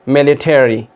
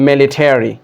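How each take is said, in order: Both takes have the same delivery.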